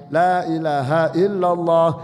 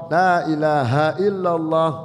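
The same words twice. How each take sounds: No difference in how they are said.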